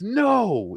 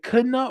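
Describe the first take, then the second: First: The word starts without any K sound. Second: The word starts with a sounded K. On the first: The speaker calls it right. "it's not Kano. It's, it's no" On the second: The speaker calls it wrong. "why is it K? So is it Kano?"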